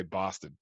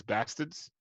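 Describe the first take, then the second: First: "bastard" said the Australian way, closer to British; Australian pronunciation. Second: "bastards" as the bad accent had it; imitated mispronunciation. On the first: Shown as a demonstration. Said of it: "an Australian would say bastard". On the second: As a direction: copy the botched accent on "bastards". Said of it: "he kept calling things bastards".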